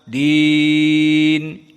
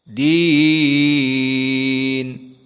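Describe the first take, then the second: First: The vowel is held for a medium time. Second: The vowel is held for a long time. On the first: "dengan tawassut. Empat atau lima" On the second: "dengan al-isba' atau mengenyangkan"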